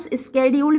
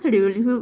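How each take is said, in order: First: The word begins with an sk sound. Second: The word begins with an sh sound. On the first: This is the American way of saying it. "इसको American स्केड्यूल भी बोलते हैं" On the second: This is the older way of saying it. "हम तो शेड्यूल बोलते हैं क्योंकि पुराने प्रोनाउंसिएशन में इसको शेड्यूल ही बोला जाता है"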